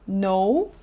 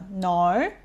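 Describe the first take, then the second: First: The vowel starts with a small mouth opening. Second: The vowel starts wide open, sounding near 'now'. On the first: "미국이나 영국식 no는 입을 작게 벌리고" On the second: "호주식으로 할 때는 ... 입을 크게 벌리고 I에서 시작합니다"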